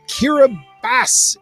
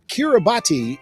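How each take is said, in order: First: The name is said the local way. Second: The name is said the international way. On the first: "Kiribati is how it is pronounced locally" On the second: "is also an accepted international pronunciation"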